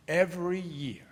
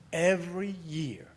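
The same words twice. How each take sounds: The two takes are said the same way.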